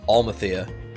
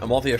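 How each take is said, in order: First: The L sound comes before the M sound. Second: The L sound comes after the M sound. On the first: The speaker calls it wrong. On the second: The speaker calls it right.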